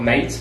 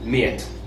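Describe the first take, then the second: First: The vowel sounds like 'ay'. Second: The vowel sounds like 'ear'. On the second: "pronouncing the A sound as an ear"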